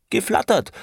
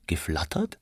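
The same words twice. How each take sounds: First: Very high, emphatic outburst; indignant insistence. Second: Whispered, questioning repeat; hushed echo. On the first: Franz insists on his word to Aneschka, indignantly. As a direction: throw the word back, pitched way up. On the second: Aneschka queries Franz's odd word, in a hushed echo. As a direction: softly whisper it back as a question. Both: A narrator's reading.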